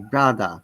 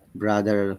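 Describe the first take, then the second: First: The final R is not pronounced. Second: The final R is clearly pronounced. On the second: "pronounce it with R"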